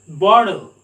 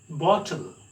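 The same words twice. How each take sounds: First: The t sounds like a d. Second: The t sounds like a clear t. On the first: "They pronounce ta as da" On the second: "British people sound it as"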